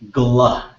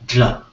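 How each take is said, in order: First: It starts with a plain English g and l. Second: It starts with a non-English consonant sound. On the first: The speaker calls it wrong. "like gla with a G and an L in English" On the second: The speaker calls it right. "as opposed to gla"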